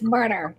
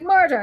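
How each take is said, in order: First: It is said in an American accent. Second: It is said in an Irish accent. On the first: "And they're like" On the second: "I have a very Irish accent when I say murder"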